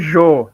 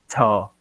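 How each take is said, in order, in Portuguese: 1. Começa com um som suave de 'zh'. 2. Começa com um som parecido com 'ch'. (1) "não é Jô" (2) "o J tem o som de ch"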